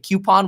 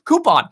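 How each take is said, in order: First: The word begins with a 'kyoo' sound. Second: The word begins with a 'coo' sound. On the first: The speaker calls it wrong. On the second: The speaker calls it right.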